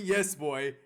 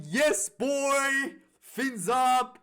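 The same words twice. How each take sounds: First: Said in the usual way. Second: Loud, high cheering yell; screaming cheer. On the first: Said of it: "I was screaming". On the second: Retold or imitated. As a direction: shout it like your team just scored. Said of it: "I was literally screaming".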